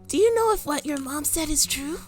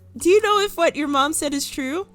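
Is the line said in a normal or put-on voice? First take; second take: put-on; normal. First: It is said in an odd put-on voice. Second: It is said in a plain, normal voice.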